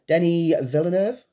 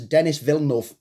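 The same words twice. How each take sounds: First: The name is said with French-style pronunciation. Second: The name is said with English-style pronunciation. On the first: "I'm going to pronounce his name wrong" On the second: "for those who aren't too sure about like French pronunciations"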